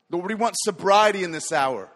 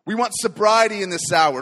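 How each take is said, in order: First: Said in the usual way. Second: Much louder, pressing on sobriety; louder plea. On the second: Acted. Preacher praying for sobriety, now forceful and louder. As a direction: repeat the plea with more force.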